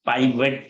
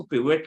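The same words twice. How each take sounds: First: पाइवट with a long "pie" first syllable; पाइवट opening like "pie"; British-style pronunciation. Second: पिवट with a short "pi" first syllable; पिवट opening like "pit"; American-style pronunciation. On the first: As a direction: say पाइवट slowly as "PIE-vet". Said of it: "और British accent में शायद". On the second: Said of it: "American accent में इसको पिवट कहते हैं". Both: Shown as a demonstration.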